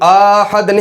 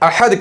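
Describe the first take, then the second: First: The first vowel is drawn out long. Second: The first vowel is cut short. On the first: The speaker calls it wrong. "इसको आहद नहीं करके पढ़ा जाएगा" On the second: The speaker calls it right. "बल्कि इसको भी अहद अहद कह के पढ़ा जाएगा"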